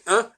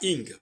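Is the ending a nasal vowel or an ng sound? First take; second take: nasal vowel; ng sound. First: It is said as a French nasal vowel. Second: It is said as an English ng ending. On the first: The speaker calls it right. "il faut le prononcer un" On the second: The speaker calls it wrong. "et pas ing. Ce ing est totalement anti-français"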